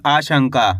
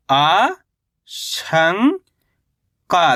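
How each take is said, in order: First: Said in the usual way. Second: आ, शं, का held apart, first two rising; spell-reading आ, शं, का in drawn-out pieces; syllable by syllable. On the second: Shown as a demonstration. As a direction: sound out आ ... शं ... का with gaps. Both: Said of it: "कैसे पढ़ेंगे इसको अपन?".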